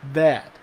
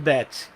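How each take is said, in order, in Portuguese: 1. Em "that", o T final não é pronunciado. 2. Em "that", o T final é pronunciado claramente. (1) "o that a gente não pronuncia o T final. É that" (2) "A gente não fala that"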